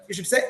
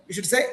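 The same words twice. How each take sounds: The two takes are said the same way.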